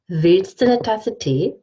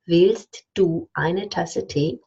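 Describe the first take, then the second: First: Du becomes a schwa and eine becomes ne. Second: Every word is said fully and carefully. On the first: The speaker calls it right. "I say" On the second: The speaker calls it wrong. "I don't say that ever"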